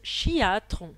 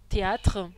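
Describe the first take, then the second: First: The word begins with a 'ch' sound. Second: The word begins with a plain 't' sound. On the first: "les carioca ils prononcent chiatre" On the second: "le mot théâtre"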